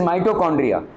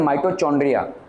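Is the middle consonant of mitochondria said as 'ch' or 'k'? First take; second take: k; ch. First: The middle consonant is a 'k' sound. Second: The middle consonant is a 'ch' sound. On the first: The speaker calls it right. "It is माइटोकॉन्ड्रिया" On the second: The speaker calls it wrong. "कुछ लोग बोलते हैं माइटोचॉन्ड्रिया, गलत है"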